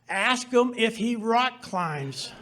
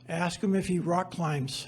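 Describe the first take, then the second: First: It is said loudly and insistently. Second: It is said quietly, almost under the breath.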